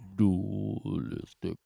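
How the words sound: It is said in a very low voice.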